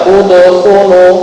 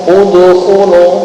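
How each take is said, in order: First: The bounced d leans toward an u sound. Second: The same.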